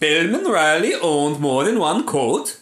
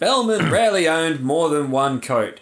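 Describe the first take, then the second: First: It is spoken in a put-on Swedish accent. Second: It is spoken in the speaker's normal accent.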